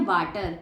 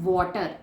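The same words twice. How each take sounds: First: वाटर with a flat a and rolled r; wrong pronunciation. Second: वाटर with an aw vowel, no r; correct pronunciation. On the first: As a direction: say वाटर as "waa-ter". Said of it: "वाटर भी गलत pronunciation है". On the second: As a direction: say वाटर as "waw-tuh". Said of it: "सही pronunciation होती है वाटर". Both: Shown as a demonstration.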